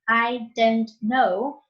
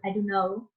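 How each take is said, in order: First: Every sound is pronounced carefully and fully. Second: It is said quickly with some sounds dropped.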